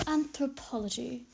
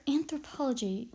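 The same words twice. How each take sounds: First: Slow, drawn-out stab at a British professor; British-style "Anthropology", slowly enunciated; attempted British accent. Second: Said in the usual way. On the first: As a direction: badly attempt a British accent, stretching the word. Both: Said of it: "I'm trying to imitate it".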